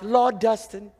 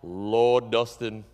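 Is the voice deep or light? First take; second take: light; deep. First: It is said in a lighter, higher voice. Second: It is said in a deep, low voice. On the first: "Maybe it's more like" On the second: "maybe you don't say it that deep"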